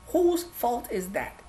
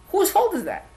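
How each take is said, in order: First: Softer and slow, letting it sink in; quiet, slow repeat of the question; slow, quieter repeat. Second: Higher, sharp challenging ask; raised, accusing rhetorical question; pointed question. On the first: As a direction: drop the voice and linger. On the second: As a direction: throw the question at them. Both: Acted.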